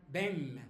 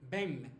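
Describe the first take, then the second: No difference in how they are said.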